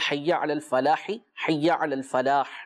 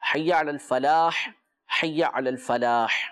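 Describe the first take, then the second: First: The first phrase ends in an i vowel, linking on. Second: Both phrases end with a stopped h, no vowel. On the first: This is the way it is said in the iqamah. "یہ دونوں ملا کے پڑھیں گے, تو چونکہ پہلے والے کے اوپر زیر پڑھنا ہے اور دوسرے والے کو ساکن کر دینا ہے" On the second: This is the way it is said in the adhan. "اگر اذان کے اندر پڑھ لیں تو پھر دونوں کو ساکن کریں گے"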